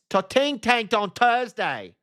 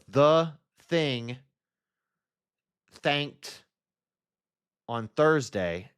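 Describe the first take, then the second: First: The th sounds are said as hard t. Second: The th sounds are said as soft th. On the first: "my T H's make a T sound" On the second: "Instead of"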